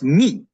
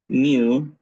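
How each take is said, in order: First: The word ends with an 'ee' vowel. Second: The word ends with an 'oo' vowel. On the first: This is how Greeks say it. "In Greek, this letter is pronounced mi" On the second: This is the English mathematical name. "the mathematical English way of pronouncing the letter mu"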